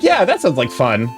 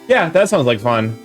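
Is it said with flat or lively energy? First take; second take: lively; flat. First: It is said brightly with high energy. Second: It is said flatly with low energy.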